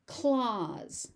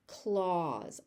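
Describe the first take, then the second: First: Said in the usual way. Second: "Clause" said carefully with its vowel drawn out; overpronounced. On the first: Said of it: "I will say the word normally". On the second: Shown as a demonstration. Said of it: "I will overpronounce it".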